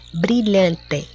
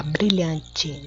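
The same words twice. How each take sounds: First: "Brilhante" ending in a clear written E, "-te"; spelling pronunciation. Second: "brilhante" ending in a "chee" sound; everyday spoken pronunciation. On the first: Teacher checking spelling with pupils, "Brilhante" pronounced as written, ending "-te". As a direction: say "Brilhante" as written, with a hard t and final e. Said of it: "que a gente fala brilhante, mas escreve com E".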